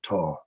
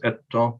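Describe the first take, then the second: First: The word has one syllable with a long vowel. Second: The word has two syllables with short vowels. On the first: "if you drop off the first syllable, you've got to lengthen the vowel" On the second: "when it's bisyllabic, it meets the minimal word condition, so it just stays as eta"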